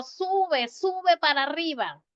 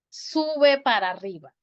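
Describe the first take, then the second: First: "Sube" called out high; calling to a child on the hill, much higher. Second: Said in the usual way. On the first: Pretend. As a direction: call the child up the slope. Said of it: "yo digo". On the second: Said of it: "no tengo que decir".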